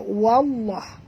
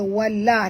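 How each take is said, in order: First: The l sound is heavy and thick. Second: The l sound is light and thin. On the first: The speaker calls it right. "tapi baca wallah" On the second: The speaker calls it wrong. "Bukan baca wallah"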